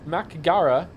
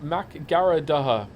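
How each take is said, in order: First: The name is said with two short syllables after Mac. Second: The name is said with extra syllables after Mac. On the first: The speaker calls it right. "It's Mac Gara" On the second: The speaker calls it wrong. "not Mac Garadaha"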